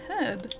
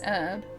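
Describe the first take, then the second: First: The word begins with an audible H sound. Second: The word begins with a vowel, no H sound. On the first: This is how it is said in Australia. "in Australia it's herb. We pronounce the H" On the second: This is how it is said in the United States. "in the States it's um it's herb"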